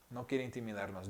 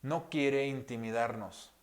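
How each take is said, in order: First: Much softer, gentle repeat; tender, quiet echo of the line. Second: Said in the usual way. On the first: Shown as a demonstration. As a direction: drop to a near hush on the repeat. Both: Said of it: "Dios habla con una voz tan delicada".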